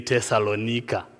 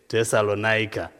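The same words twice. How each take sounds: First: It is pronounced the Zimbabwean way. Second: It is pronounced the way the local audience does. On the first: "In Zimbabwe, we say Thessalonica" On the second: "I'm going to try to pronounce it the way you do it here"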